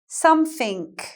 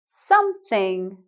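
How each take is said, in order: First: The middle sound is an f, the end a k. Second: The middle sound is a clear th. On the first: "Compare these to Cockney English" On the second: "I'll say them in proper English"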